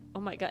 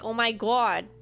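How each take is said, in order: First: It is said in the speaker's ordinary accent. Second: It is said in a put-on Boston accent.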